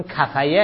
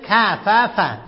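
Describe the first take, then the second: First: کفیه ending in fa-ya; a y where the second f belongs in کفیه; rejected pronunciation. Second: کففه with the f clearly repeated; corrected pronunciation. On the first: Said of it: "اینجا کفیه نیست". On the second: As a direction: say کففه as ka-fa-fa, louder and higher. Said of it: "اینجا چی هست؟". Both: Shown as a demonstration.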